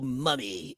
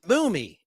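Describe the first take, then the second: First: The first vowel sounds like 'uh'. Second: The first vowel sounds like 'oo'. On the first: The speaker calls it wrong. "mispronounced his name. He said Bill Mummy" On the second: The speaker calls it right. "It's Boomy"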